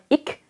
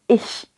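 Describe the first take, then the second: First: The word ends with a hard 'k' sound. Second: The word ends with a soft 'sh' sound. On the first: The speaker calls it wrong. "bukan ik" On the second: The speaker calls it right. "tapi ish"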